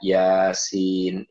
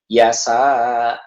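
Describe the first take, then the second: First: The word ends with a clear n sound. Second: The word ends on an open vowel. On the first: The speaker calls it right. "Harusnya baca yasin" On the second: The speaker calls it wrong. "ini mah yasa"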